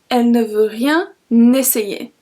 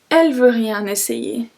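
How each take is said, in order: First: The full form with 'ne' is pronounced. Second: The 'ne' is dropped from the sentence.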